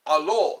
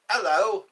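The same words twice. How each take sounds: First: "Hallo" with a German open a. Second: Said in the usual way. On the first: Shown as a demonstration. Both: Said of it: "That's how you say it in German".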